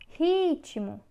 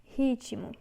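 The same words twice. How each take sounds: First: Ritmo loud and higher, Ri punched; teacher emphasizing the stressed syllable. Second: Said in the usual way. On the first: Shown as a demonstration. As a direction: hammer the Ri of Ritmo. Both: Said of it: "é o ri".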